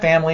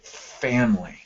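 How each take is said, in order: First: The word is said quickly without lingering. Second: The word is slowed and drawn out with emphasis. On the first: The word is just mentioned in passing. "Sounds different than" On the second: The word carries strong feeling for the speaker. "I call it sitting on a word with your with your voice"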